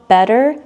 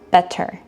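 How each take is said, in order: First: The middle consonant sounds like a soft D. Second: The middle consonant sounds like a crisp T. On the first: The speaker calls it right. "it sounds like two D's" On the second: The speaker calls it wrong.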